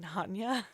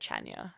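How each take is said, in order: First: The name begins with a soft 'h' sound. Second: The name begins with a hard 'ch' sound. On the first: The speaker calls it right. "you mean Hanya?" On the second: The speaker calls it wrong. "I want to go to Chania"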